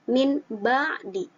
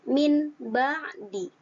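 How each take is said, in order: No difference in how they are said.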